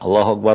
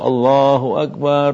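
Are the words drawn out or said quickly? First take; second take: quick; drawn out. First: The words are said quickly without lengthening. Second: The words are drawn out with long vowels. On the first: It is the call that starts the prayer itself. The speaker calls it right. "iqamat itu dipercepat" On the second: It is the call that summons people to prayer. The speaker calls it wrong. "seperti dia panjangkan adhan"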